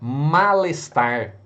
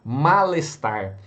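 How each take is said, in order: Both takes have the same delivery.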